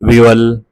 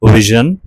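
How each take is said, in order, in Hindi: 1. बीच का व्यंजन y जैसा लगता है। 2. बीच का व्यंजन गुनगुनाती हुई zh ध्वनि है। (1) "असां सिंधी में अक्सर इन खे मिसप्रोनाउंस कंदा आहियूं" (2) "हिन जी एक्यूरेट प्रोनाउंसिएशन में ही आवाज़ पाण हाईलाइट हूंदो आहे"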